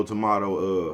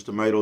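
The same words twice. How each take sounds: First: Tomato said with "ah": to-MAH-to; tomato with the open A of "father"; tomato, tuh-MAH-doe. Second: Tomato said with "may": to-MAY-to; tomato with the long A of "day"; tomato, tuh-MAY-doe. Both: Shown as a demonstration.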